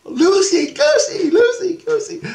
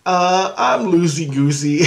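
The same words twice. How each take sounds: First: Put-on very high squealing children's chant; piercingly high mimicked kid voices; imitated kids. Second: Said in the usual way. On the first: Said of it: "And the kids go". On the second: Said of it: "And I go".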